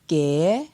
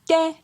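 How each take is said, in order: First: The syllable is said on a rising tone. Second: The syllable is said on a high tone. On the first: "Pour un ton montant" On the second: "Pour un ton haut"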